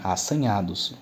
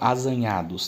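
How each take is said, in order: First: The middle consonant sounds like an s. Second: The middle consonant sounds like a z. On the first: The speaker calls it right. "É assanhados, né?" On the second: The speaker calls it wrong. "Não, né? Sem o S fica estranho"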